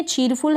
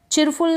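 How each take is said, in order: First: चीरफुल with a long "ee" and full "r"; long vowel demo. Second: चिरफुल with a short "i" in the first syllable; mispronunciation demo. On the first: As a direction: say चीरफुल like English "cheerful". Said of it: "बड़ी ई की मात्रा के रूप में". (चीरफुल में बड़ी ई, पूरा र) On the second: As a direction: clip the vowel to "chir" in चिरफुल. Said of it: "चिरफुल नहीं है". (चिरफुल में छोटी इ की मात्रा) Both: Shown as a demonstration.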